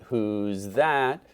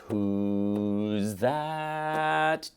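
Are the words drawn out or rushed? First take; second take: rushed; drawn out. First: The two words are said quickly and clipped. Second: Each word is held long and drawn out. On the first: The speaker calls it wrong. "You don't want" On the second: The speaker calls it right. "Remember to give those notes both beats"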